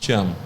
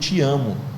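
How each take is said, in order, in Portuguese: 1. É dito de forma monótona, sem emoção. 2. É dito com carinho, com emoção e um sorriso. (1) "Nossa, que falta de emoção" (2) "vou dar um sorriso e falar com emoção"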